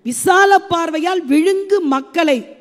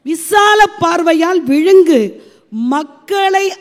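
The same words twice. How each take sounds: First: The last word runs on without a pause. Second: A pause comes before the last word. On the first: The people are what gets swallowed. The speaker calls it wrong. "தவறான ஒரு உச்சரிப்பு, சீர் அங்க பிரிக்கவே கூடாது" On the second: The people begin the next phrase. The speaker calls it right. "அதோட நிறுத்திக்கணும்"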